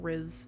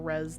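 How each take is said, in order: First: The vowel sounds like the one in 'fizz'. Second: The vowel sounds like the one in 'fez'. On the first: The speaker calls it right. "the Riz" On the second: The speaker calls it wrong. "not the res"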